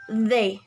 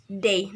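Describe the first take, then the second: First: It begins with a soft 'th' fricative. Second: It begins with a hard 'd' or 't' stop. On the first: The speaker calls it right. "the pronouns in English, uh, right, is they" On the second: The speaker calls it wrong. "the students in Indonesian pronounce this they"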